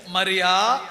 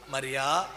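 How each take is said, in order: First: "Mariya" called out louder and fuller; "Mariya" called out strongly, not hushed; fuller calling. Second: Soft, low, tender calling of the name; Jesus tenderly calling Mary by name; sweet calling voice. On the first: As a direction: call "Mariya" across the garden, louder. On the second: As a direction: breathe her name gently, lovingly. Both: Retold or imitated. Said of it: "ఆ sweet వా".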